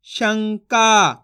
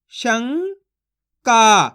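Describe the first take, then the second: First: Said in the usual way. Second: शंका split as "शं", long pause, "का"; syllable by syllable. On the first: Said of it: "तो मिलके बन जाएगा". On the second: Shown as a demonstration. Teacher shows his method on शंका, syllable by syllable. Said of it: "एक एक अक्षर का उच्चारण करके".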